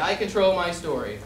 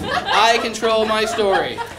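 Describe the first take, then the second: First: It is said plainly with ordinary energy. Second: It is said with full power and conviction.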